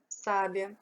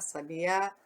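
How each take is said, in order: First: The stress is on the first syllable sa. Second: The stress is on the last syllable. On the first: "O sá é a sílaba mais forte" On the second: "o A vai lá em cima"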